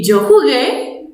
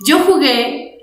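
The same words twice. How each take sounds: First: "yo jugué" with a rising tune on "jugué"; question tune. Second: "Yo jugué" with a falling tune as a statement. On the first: Teacher showing the Spanish question, rising. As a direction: lift the end to make it a question. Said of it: "only changing the accent at the final". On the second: Teacher showing the Spanish statement, falling. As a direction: end it falling, like a plain fact. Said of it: "even if the Spanish we can say". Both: Shown as a demonstration.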